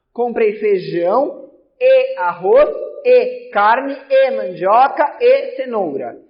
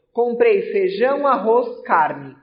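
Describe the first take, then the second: First: Every "e" punched louder with a rise before each item; stress on each E. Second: Each item with a light rising list tune, no "e" between; teacher listing groceries simply, comma by comma; list without conjunctions. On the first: Teacher demoing polysyndeton to the class, punching every "e". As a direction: hammer each repeated "e" in the list. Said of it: "No polissíndeto eu vou repetir o E". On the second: Teacher demoing asyndeton with a grocery list, plain rising list tune. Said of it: "aqui eu ignoro a presença do E". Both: Shown as a demonstration.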